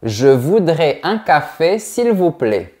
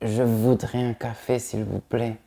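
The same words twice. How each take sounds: First: It is said loudly with every sound articulated. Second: It is mumbled quietly without clear articulation. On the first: The speaker calls it right. "on entend bien chaque son de chaque mot" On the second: The speaker calls it wrong. "ne dis pas"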